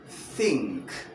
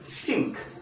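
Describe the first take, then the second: First: The word begins with a th sound. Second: The word begins without a th sound. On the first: The speaker calls it right. "but rather think. The theta sound" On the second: The speaker calls it wrong. "I do not say"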